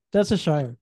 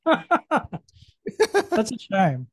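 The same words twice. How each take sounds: First: Said in the usual way. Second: Slow laugh through the words; laughing it out slowly. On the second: Real, not acted. Laughing at chalky cookie.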